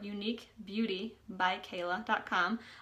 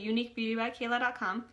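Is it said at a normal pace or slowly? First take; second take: slowly; normal. First: It is said slowly. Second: It is said at a normal pace.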